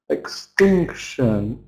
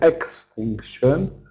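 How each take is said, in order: First: The second syllable is stressed. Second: The second syllable is not stressed. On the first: The speaker calls it right. "stress before shun" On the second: The speaker calls it wrong. "We can't say extinction"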